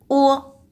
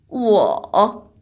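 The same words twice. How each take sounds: First: The pitch is short and light. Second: The pitch dips low before rising.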